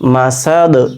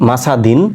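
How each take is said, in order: First: The word ends on a bounced, echoing 'd'. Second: The word ends with a full '-din' syllable. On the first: The reader stops at this word. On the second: The reader continues into the next word.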